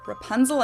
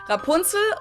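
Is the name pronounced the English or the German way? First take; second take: English; German. First: The name is pronounced with English sounds. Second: The name is pronounced with German sounds.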